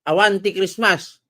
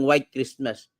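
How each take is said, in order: First: It is said in an Ilocano accent. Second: It is said in a plain accent.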